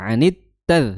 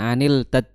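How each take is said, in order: First: The l merges into a doubled t sound. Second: A separate l sound is heard before the t. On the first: The speaker calls it right. "Jadi anit tad" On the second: The speaker calls it wrong. "bukan anil tad"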